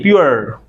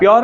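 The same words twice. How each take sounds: First: "प्योर" as pyoo-er, lower and falling; correct English pronunciation. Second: "प्योर" with a full o, pyor; wrong, Indianised pronunciation. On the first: Teacher gives students the corrected word, correct pronunciation. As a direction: glide "प्योर" from u down into er. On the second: Teacher rejects the students' habit, wrong pronunciation. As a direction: say "प्योर" with a rounded o. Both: Shown as a demonstration. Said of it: "प्योर नहीं".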